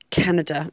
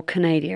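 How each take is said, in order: First: Said in the usual way. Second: "Canada" playfully turned into Ca-NAY-dia; playful mispronunciation. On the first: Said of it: "or Canada as I like to call it". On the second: Shown as a demonstration. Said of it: "as I like to call it".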